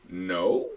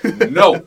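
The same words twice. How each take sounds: First: It sounds hesitant, almost like a question. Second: It sounds firm and assertive. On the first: The refusal is unclear. The speaker calls it wrong. "Was that a no or was that a question?" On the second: The refusal is clear. The speaker calls it right. "has a woman ever really said no that assertive"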